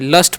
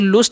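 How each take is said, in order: First: The vowel is an 'uh' sound. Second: The vowel is an 'oo' sound. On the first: The speaker calls it right. "लस्ट पढ़ेंगे" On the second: The speaker calls it wrong. "लुस्ट नहीं"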